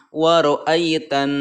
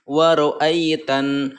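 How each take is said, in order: The two takes are said the same way.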